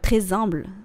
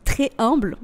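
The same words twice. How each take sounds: First: The s of très links into humble. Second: The s of très is silent before humble. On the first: The speaker calls it wrong. "J'ai fait la liaison" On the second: The speaker calls it right. "voilà, c'est mieux"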